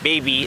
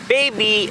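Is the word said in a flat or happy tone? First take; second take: flat; happy. First: It is said in a flat, plain tone. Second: It is said in a happy, uplifting tone. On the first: "just baby" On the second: "she had an uplifting voice"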